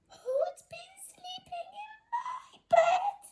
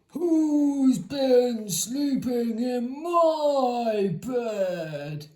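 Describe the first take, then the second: First: It is said in a tiny squeaky voice. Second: It is said in a deep gruff voice.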